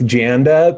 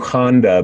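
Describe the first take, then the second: First: The name begins with a J sound. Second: The name begins with an H sound. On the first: This is the form the name's owner uses. "I go with Janda" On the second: This is how people in South America say it. "because J is uh, an H sound there"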